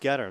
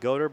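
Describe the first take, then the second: First: The first vowel sounds like the 'e' in get. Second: The first vowel sounds like the 'o' in go. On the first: The speaker calls it right. "but it's Getter" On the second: The speaker calls it wrong. "phonetically looks like Goder"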